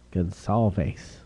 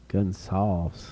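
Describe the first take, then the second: First: Gonsalves with the ending said "salveys"; fancy Spanish pronunciation. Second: Said in the usual way. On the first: Shown as a demonstration. Trying out the Spanish way of saying a card's player name. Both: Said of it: "that's the fancy pronunciation".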